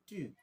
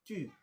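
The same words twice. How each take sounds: No difference in how they are said.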